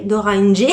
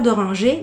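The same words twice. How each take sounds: First: Playful southern French twang; southern French accent. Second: Said in the usual way. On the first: Pretend. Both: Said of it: "mettre un petit accent du sud".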